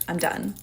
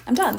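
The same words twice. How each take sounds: First: Said in the usual way. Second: Louder repeat. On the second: Retold or imitated. Repeated, more forcefully.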